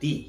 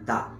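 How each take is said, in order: First: The word ends in a long ee vowel. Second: The word ends in a short uh vowel. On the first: The next word starts with a vowel. "সেই ওয়ার্ডের প্রথম অক্ষরটা যদি vowel হয়, তখন তার উচ্চারণ হয় দি" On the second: The next word starts with a consonant. "প্রথম অক্ষরটা যদি কনসোনেন্ট হয়, তাহলে তার উচ্চারণ হয় দা"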